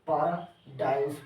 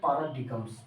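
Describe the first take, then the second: First: The g is silent, ending in dimes. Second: A hard g sound is pronounced in the middle. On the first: The speaker calls it right. "पैराडाइम्स पढ़ना। क्यों? क्योंकि जी इसमें silent" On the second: The speaker calls it wrong. "बहुत बहुत बहुत लोग पढ़ देते हैं पैराडिगम्स"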